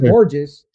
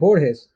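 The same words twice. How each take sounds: First: The name is said with English sounds. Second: The name is said with Spanish sounds. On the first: The speaker calls it wrong. "Porque no es Borges" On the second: The speaker calls it right. "es Borges"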